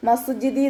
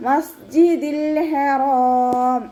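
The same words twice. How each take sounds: First: മസ്ജിദി with the final l dropped, spoken; wrong reading. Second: Slow, higher chanted മസ്ജിദിൽ with the l kept; correct recitation. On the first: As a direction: say മസ്ജിദി cut short. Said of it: "നോതി പോവരുത്". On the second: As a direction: chant മസ്ജിദിൽ ഹറാം fully and slowly. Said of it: "അതുപോലെ ഓതുക". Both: Shown as a demonstration.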